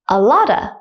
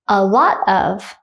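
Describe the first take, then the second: First: The words blend, ending in a short uh. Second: All words are said fully and separately.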